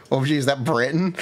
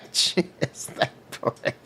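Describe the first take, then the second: First: Said in the usual way. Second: Whispered laugh through words. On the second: Real, not acted. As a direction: giggle it out quietly. Laughing after recognizing character.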